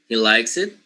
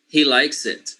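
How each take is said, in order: First: The pitch rises at the end. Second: The pitch falls at the end. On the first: It asks someone to confirm he likes it. "with raising intonation" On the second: It states that he likes it. "with falling intonation"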